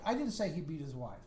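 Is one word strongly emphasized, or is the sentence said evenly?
even. The sentence is said evenly, with no word singled out. It is a plain statement of fact. "Very factual based. Okay, that was the the basic statement"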